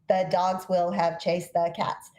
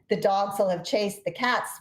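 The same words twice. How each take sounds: First: Every syllable is slow and equally long. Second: Dogs, chased and cats are long; others short. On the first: The speaker calls it wrong. "syllable timed, where every syllable takes longer to say" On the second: The speaker calls it right. "dogs uh, chase and cats are the the long stressed syllables"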